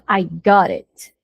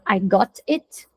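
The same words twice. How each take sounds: First: The words are run together into one flow. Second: The words are said separately, each one distinct. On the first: The speaker calls it right. "você junta" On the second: The speaker calls it wrong. "Ao invés de falar"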